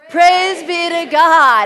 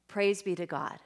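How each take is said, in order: First: It is said in a loud, outside voice. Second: It is said at a normal, quieter volume.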